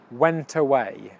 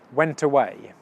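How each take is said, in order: First: The words are said quickly and run together. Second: The same.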